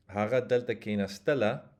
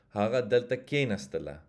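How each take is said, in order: First: Haga delta kena stela with STE stressed in stela; accent on the back. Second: Haga delta kena stela with KE stressed in kena; accent on the front. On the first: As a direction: land on stela, not on kena. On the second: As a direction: hit kena, let stela fall away. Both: Shown as a demonstration. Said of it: "just by changing the accent".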